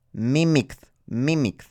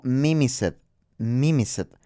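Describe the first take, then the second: First: "mimicked" with a hard K before the ending. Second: "mimicet" with C as an S, ending in a full "set"; mispronounced mimicet. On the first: Teacher modelling the past tense, "mimicked" with a K sound. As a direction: say "mimicked" as MI-mikt, keeping the K. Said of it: "queremos conservar el sonido de la C". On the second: Teacher showing learners a misreading, "mimicet" with an S sound. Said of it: "se leería algo así como". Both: Shown as a demonstration.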